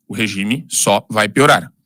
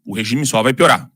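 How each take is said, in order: First: "O regime só vai piorar" bem devagar, palavra por palavra; repetição para fixar. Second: Said in the usual way. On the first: Real, not acted. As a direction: repita mais grave e pausado, destacando "só". (frase lenta e escandida, para gravar na memória) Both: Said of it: "preciso repetir algumas coisas pra fixar".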